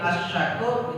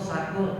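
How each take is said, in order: First: The word begins with an 'sh' sound. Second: The word begins with a plain 's' sound. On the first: It means the grateful one. The speaker calls it right. "asyakur itu pakai shin" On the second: It means drunk. The speaker calls it wrong. "pakai sin"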